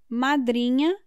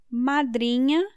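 No difference in how they are said.

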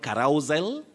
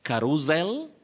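First: The stress falls on the second syllable. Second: The same.

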